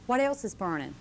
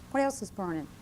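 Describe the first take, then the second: No difference in how they are said.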